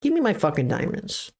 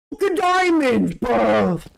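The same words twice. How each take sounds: First: Said in the usual way. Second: High mock British accent; playful British accent outburst. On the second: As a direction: slip into a cheeky British accent. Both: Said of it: "Okay, I turned British".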